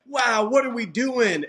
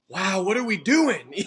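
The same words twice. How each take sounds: First: The voice sounds thrilled and delighted. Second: The voice sounds bewildered and overwhelmed. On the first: The situation feels like an amazing adventure. "it's the tone of voice" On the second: The situation feels confusing and too big. "And then it's"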